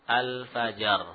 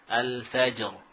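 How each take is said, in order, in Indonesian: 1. Vokal penuh terdengar setelah j. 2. Huruf j hanya mendapat pantulan singkat. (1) "seperti kita membaca apa? Rok sukun sebelumnya apa? Harokat. Fajar. Ya, semudah itu" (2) "Cuma sekarang bukan itu tentunya. ... itu yang kita baca"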